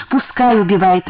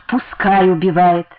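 First: Said in the usual way. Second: Slow, proudly drawn-out defiance; proud, joyful defiance. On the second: A narrator's reading. Wife repeating her defiance of the husband, proud and joyful. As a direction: savour the words with reckless pride. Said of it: "гордо и радостно повторила".

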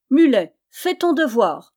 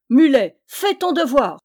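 First: Loud, raised-pitch commanding shout; louder cry. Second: Very loud, high bellowed command; thundering yell. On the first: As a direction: shout the order with insistence. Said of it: "cria plus fort le petit tailleur". (ordre crié bien fort) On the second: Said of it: "hurla Yann d'une voix de tonnerre". (hurlé d'une voix de tonnerre) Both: A narrator's reading.

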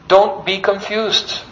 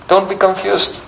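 First: Slow, weighty don't be confused; a teacher warning devotees slowly. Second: Said in the usual way. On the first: Shown as a demonstration. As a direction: lean on Don't, slowly and gravely. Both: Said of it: "repeats the warning".

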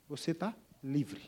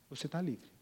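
First: Gentle first telling. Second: Softer repeat. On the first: First of repeated line. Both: Acted.

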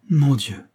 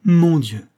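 First: A cry of pain, lifted; first anguished cry of «Mon Dieu!», raised but held back. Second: «Mon Dieu!» flung out louder and higher; anguished outcry. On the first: Englishman cries out to his guests, a first restrained anguished cry. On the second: Englishman, hurt by the remark, cries out loudly in anguish. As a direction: let the second «Mon Dieu!» break out in anguish. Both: A narrator's reading. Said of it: "s'écria-t-il".

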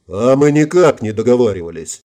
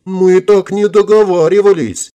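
First: Said in the usual way. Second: High, loud, slow whiny protest; hammed-up frightened objection; feigned horror. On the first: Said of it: "осклабился Эдди". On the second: A narrator's reading. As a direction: wail it in pretend horror. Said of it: "Чуть не задрожала от притворного ужаса".

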